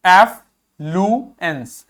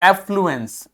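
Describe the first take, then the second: First: affluence slowly, with gaps between parts; slow teaching breakdown of affluence; syllable by syllable. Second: Said in the usual way. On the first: Shown as a demonstration.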